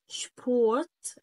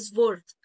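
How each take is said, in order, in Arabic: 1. الكلمة تبدأ بصوت sh. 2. الكلمة تبدأ بصوت s عادي. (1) "عندي اس بي شبورت" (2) "ما تقوليش بقى سبورت"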